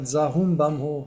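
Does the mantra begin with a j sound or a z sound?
z sound. It starts with z and has bam. This is how Tibetans pronounce it. The speaker calls it wrong. "Ça, c'est les Tibétains qui prononcent comme ça"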